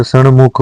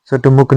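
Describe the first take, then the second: First: सणमुख with retroflex n before m; correct retroflex n. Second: सटमुख with retroflex t before m; wrong t. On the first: Teacher giving learners the correction, सणमुख with nasal n. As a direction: say सणमुख as san-mukh. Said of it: "सटमुख नहीं होता". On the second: Teacher showing learners the mistake, सटमुख with t. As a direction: say सटमुख as sat-mukh. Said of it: "सणमुख होता है". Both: Shown as a demonstration.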